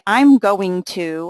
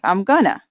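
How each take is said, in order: First: Going to is said in full. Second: Going to is reduced to gonna. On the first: It sounds like reading from a script. The speaker calls it wrong. "I don't say I'm going to" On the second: It sounds casual, like real everyday speech. The speaker calls it right.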